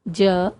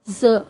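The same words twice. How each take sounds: First: The consonant has its traditional sound. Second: The consonant has its changed nukta sound. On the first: "परंपरागत वर्ण" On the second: "यदि हम नुक्ता लगा दें तो इसके उच्चारण में परिवर्तन आ जाता है"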